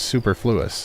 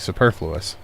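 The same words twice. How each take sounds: First: It is said as 'super' plus 'fluous'. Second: It is not said as 'super' plus 'fluous'. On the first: The speaker calls it wrong. "A combination of the two words, you know, super being super and fluous being fluid-like" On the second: The speaker calls it right. "it's actually superfluous"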